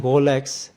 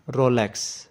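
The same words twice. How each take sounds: First: "Rolex" with a throaty French R, almost a G; Swiss French pronunciation. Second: "Rolex" said the American way, with a clear R; American pronunciation. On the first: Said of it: "with a typical Swiss French pronunciation". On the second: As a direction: say "Rolex" with an American R and open "lex". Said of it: "the correct pronunciation is Rolex in American". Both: Shown as a demonstration.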